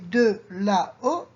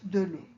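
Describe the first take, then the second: First: Both vowels are said, with 'la' kept whole. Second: The 'a' is dropped, linking 'l' to 'eau'. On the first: The speaker calls it wrong. "We don't say de la o" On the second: The speaker calls it right. "it becomes de l'eau"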